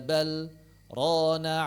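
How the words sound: There is a brief stop between the two words. The speaker calls it right. "mesti berhenti sejenak tanpa bernapas"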